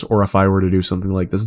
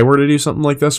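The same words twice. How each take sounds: First: "or if I were to do something like this" kept level with no pitch movement; flat monotone. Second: "so if I were to do something like this" with a rising, bouncy, higher tune; lively inflection. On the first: Streamer shows chat the flat way he once talked, monotone. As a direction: read it flat as a run-on. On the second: Streamer shows chat the inflected way to talk, lively and higher. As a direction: swing the pitch up and down through the line. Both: Shown as a demonstration. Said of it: "there is a large difference".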